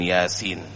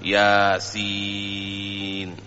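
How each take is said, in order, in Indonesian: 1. Suku kata terakhir dibaca pendek. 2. Suku kata terakhir dibaca sangat panjang. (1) "bukan yasin" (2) "dibaca enam"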